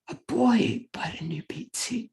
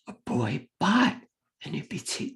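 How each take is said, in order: First: The emphasis falls on the word boy. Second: The emphasis falls on the word bought. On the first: It was a boy, not someone else. "the student will correct it and put the emphasis on that word" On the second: The pizza was bought, not sold. "the student will correct it and put the emphasis on that word"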